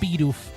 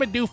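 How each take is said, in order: First: The name is said slowly and fully. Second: The name is said quickly and clipped. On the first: "That's also how I pronounce it" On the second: "a little reductive ... saying its name very quickly"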